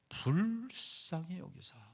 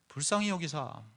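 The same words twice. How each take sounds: First: The first syllable is drawn out long. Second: The first syllable is said short and plain.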